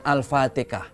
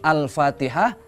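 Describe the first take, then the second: First: The h sound is left out. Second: The h sound is clearly pronounced. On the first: "karena mereka susah mengucapkan huruf H" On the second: "ketika mereka mengucapkan Al-Fatihah"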